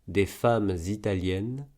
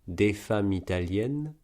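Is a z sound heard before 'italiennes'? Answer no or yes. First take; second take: yes; no. First: A z sound links femmes to italiennes. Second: The final m runs straight into italiennes, no z. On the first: "une liaison" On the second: "un enchaînement"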